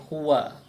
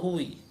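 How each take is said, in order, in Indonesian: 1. Kata itu berakhir dengan vokal a. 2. Kata itu berakhir dengan vokal i. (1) "selamanya harokat akhirnya fathah" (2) "tidak mungkin huwu atau huwi"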